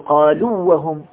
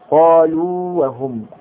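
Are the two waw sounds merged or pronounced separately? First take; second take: merged; separate. First: The two waw sounds are merged into one. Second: Both waw sounds are pronounced separately and clearly. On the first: The speaker calls it wrong. "ولكننا لا ندغم، لا نقول قالوا وهم" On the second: The speaker calls it right. "لا، قالوا وهم"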